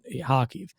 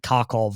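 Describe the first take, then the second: First: The final syllable is pronounced with an 'iv' sound. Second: The final syllable is pronounced with an 'ov' sound. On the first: This is how the speaker says the name. "but Kharkiv" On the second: This is how some other people say the name. "You'll hear people pronounce it Kharkov or whatever"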